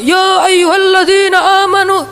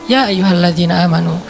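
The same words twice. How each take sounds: First: It is said loudly, like a shout. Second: It is said calmly and relaxed.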